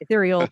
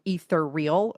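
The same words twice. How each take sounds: First: The word does not begin like 'ether'. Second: The word begins with the sound of 'ether'. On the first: It follows the dictionary pronunciation. The speaker calls it right. "those of us that knew how it was meant to be pronounced would say ethereal" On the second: It borrows the sound of Ethernet. The speaker calls it wrong. "take ether like Ethernet and turn it into ethereal, and that was how they would say it"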